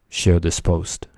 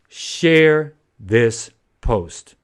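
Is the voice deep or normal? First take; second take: deep; normal. First: The voice is pitched noticeably deeper. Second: The voice is at its normal pitch.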